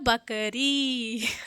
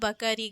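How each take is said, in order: First: The final vowel is long. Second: The final vowel is short. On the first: The speaker calls it right. "रा में भी बड़ी है" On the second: The speaker calls it wrong. "इसमें छोटी लगती तो बकरी हो जाता, बकरी गलत होता"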